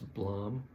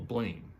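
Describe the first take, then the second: First: The name is said with a French pronunciation. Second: The name is said with an English pronunciation. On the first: "That's a French pronunciation" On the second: "that we call Blame"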